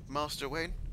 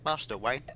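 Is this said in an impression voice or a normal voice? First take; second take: normal; impression. First: It is said in the speaker's ordinary voice. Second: It is said in a put-on character voice.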